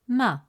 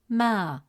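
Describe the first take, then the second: First: The vowel is short. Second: The vowel is long. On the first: "With a short fatha vowel, it sounds" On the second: "With a long vowel alif, it becomes ma, resulting in a long a sound"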